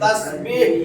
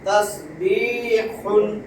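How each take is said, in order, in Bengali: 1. শব্দটি খালি h ধ্বনি দিয়ে শেষ হয়। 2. শব্দটি পূর্ণ -un দিয়ে শেষ হয়।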